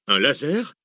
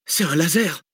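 First: Raised, rising question of surprise; astonished. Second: High-pitched excited exclamation; called out. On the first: Map reader echoing the researcher's discovery, astonished. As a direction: echo it in astonishment, lifting at the end. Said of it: "s'étonna Arsène". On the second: Researcher identifying the green light, calling out. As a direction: throw it out as a sudden realisation. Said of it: "lança la chercheuse". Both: A narrator's reading.

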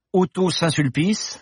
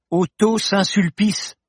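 First: Said in the usual way. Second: "Otto Saint-Sulpice" said again higher and slowly; repeated slower. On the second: Acted. Paloma repeats the name for the startled professor, slow and high. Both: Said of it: "répéta Paloma".

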